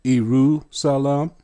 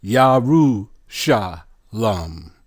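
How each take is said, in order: First: "Iru Salam" with a plain S in Salam; "Iru Salam" starting on a long ee; Greek transliteration. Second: "Yaru Sha Lam" slowly, with Ya first and sh in Sha; "Yaru Sha Lam", drawn out with open ah vowels; Hebrew pronunciation. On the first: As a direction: slowly sound out "Iru Salam", no sh. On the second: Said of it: "Let's put it all together". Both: Shown as a demonstration.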